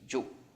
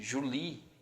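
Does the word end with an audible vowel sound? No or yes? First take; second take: no; yes. First: The word ends without any final vowel. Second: The word ends with an audible final vowel. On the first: The speaker calls it right. "como se não tivesse esse E aqui" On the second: The speaker calls it wrong. "Você normalmente escuta"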